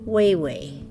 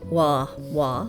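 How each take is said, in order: First: Both syllables use an 'ay' vowel. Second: Both syllables use an open 'ah' vowel. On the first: This is the town's proper pronunciation. The speaker calls it right. "it is Wayway" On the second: This is how it would be read with double A's. The speaker calls it wrong. "if there was two A's in it, it would be wah wah"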